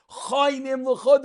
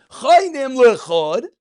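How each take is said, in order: First: Said in the usual way. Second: Chainim lechod, with lechod said loud and drawn out; stress on lechod. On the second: Shown as a demonstration. Teacher splitting the verse in two, stressing lechod. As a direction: slowly lean on lechod to show the split. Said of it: "Each one lechod by itself".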